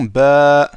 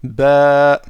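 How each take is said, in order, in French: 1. La voyelle est prolongée, elle se dit longue. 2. La voyelle est prolongée, elle se dit longue.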